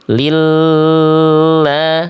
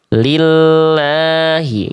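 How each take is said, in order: First: The vowel is drawn out much too long. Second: The vowel is held for only one beat. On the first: The speaker calls it wrong. "ini kelamaan" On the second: The speaker calls it right. "Jadi satu ketuk aja"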